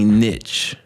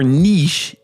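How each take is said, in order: First: The word is said in an ordinary, plain way. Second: The word is said in a pretentious-sounding way.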